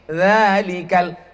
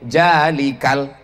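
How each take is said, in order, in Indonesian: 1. Kata itu diawali dengan bunyi 'z' tipis. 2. Kata itu diawali dengan bunyi 'j'. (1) "Itu za tipis" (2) "Enggak, jalikal"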